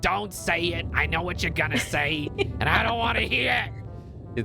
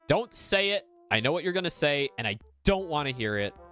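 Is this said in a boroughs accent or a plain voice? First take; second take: boroughs accent; plain. First: It is said in a rough boroughs accent. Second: It is read in a plain, ordinary voice.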